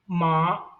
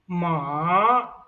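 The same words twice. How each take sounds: First: The pitch stays high and level throughout. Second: The pitch dips low and then rises. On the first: It means mother. "the first tone ma" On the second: It means horse. "The third tone is ma"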